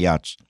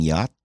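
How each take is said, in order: First: The word ends with a 'ch' sound. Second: The word ends with a plain 't' sound. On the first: The speaker calls it wrong. "Pag may maling pronunciation" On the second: The speaker calls it right. "ulitin mo in the proper, in the right way"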